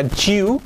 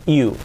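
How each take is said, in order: First: "you" with a hard j, like "Jew"; mispronounced "you". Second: "you" with a smooth y glide; correct "you". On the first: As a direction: say "you" wrongly as "chu", rising. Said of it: "No sería you". ("you" con sonido ch, mal dicho) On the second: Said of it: "cuidado, you". ("you" con i suave) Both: Shown as a demonstration.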